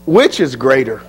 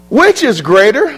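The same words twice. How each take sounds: First: "Which is greater?" dropped low and falling, lower voice; falling question. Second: "Which is greater," lifted on WHICH and rising at the end, higher; rising question. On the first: Preacher posing Jesus' question, low and falling. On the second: Preacher challenging the congregation, rising question. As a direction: throw "Which is greater," up to the room. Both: Shown as a demonstration.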